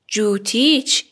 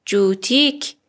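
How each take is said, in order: First: جوتیچ with final -ich; feminine ending. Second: جوتیک with final -ik; masculine ending. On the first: Teacher models a woman's shoes, جوتیچ with final ch. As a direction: end جوتیچ rising on a ch. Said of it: "کافیه کلمه رو به اضافهٔ چه کنید". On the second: Teacher models a man's shoes, جوتیک with final k. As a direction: end جوتیک rising on a k. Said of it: "کفشت". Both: Shown as a demonstration.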